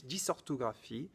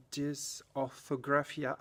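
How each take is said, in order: First: Dysorthographie softer, in native French; French pronunciation. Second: Dysorthographia slowly, with an attempted English accent. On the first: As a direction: say the term in French, a little softly. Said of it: "these are French words". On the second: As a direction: try the French term in English pronunciation, slowly. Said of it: "French words that I try to say in an English accent". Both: Shown as a demonstration.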